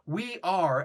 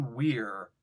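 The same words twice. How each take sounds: First: "We are" as two separate, full words; careful, fully spelled-out "We are"; uncontracted. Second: "we're" run into one casual syllable; low, easy one-syllable "we're"; contracted. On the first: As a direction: say "We are" formally, without contracting it. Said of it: "You're not like". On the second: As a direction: slur it together as "we're", pitched lower. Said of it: "as opposed to". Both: Shown as a demonstration.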